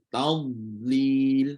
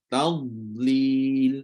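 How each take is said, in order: Both takes have the same delivery.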